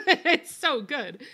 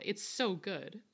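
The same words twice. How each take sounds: First: So good stretched out slow, higher and louder; drawn-out gushing. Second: Said in the usual way. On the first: Real, not acted. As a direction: gush "It's so good." slowly and loudly. Savouring the food.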